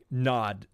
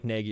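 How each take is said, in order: First: The name sounds short, like the word nod. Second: The name sounds like the English reading naggy. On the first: This is how the name's owner says it. "it sounds like he said like like Nod" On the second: This is the English way of saying the name. "it just doesn't sound like Nagy at all"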